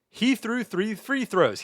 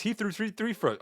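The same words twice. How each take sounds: First: Slow and careful twister attempt; slow deliberate tongue twister; careful slow take. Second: Tongue tripping on the twister; flubbed stuttering tongue twister; flubbed twister take. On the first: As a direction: carefully place every word of the twister. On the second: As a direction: rush it and fumble the words. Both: Shown as a demonstration. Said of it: "We gotta read tongue twister".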